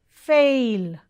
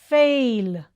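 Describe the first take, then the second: No difference in how they are said.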